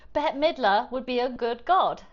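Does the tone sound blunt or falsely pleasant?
blunt. It sounds blunt and openly displeased. The speaker honestly shows dislike. "and I didn't like that"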